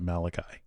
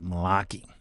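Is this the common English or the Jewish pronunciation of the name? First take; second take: common English; Jewish. First: It uses the common English pronunciation. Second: It uses the Jewish pronunciation. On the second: "They pronounce it Malachi"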